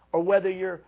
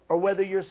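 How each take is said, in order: Both takes have the same delivery.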